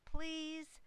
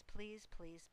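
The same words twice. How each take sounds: First: A high, louder last please; loud final plea. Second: Said in the usual way. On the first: A narrator's reading. Gosling topping the racket with one last please, high and loud. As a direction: end the begging on a shrill peak. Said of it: "They made quite a racket". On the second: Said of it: "began teasing to go".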